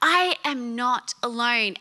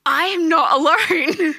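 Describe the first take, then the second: First: Said in the usual way. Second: Loud, high, laughing relief; overjoyed cry. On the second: Retold or imitated. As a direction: burst out in happy relief.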